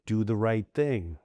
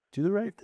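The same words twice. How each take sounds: First: Said in the usual way. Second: "right" lifted much higher in "Do the right thing"; emphatic motto. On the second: Real, not acted. Stating his values to the host with "right" raised. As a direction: punch "right" up high. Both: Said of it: "repeats the motto".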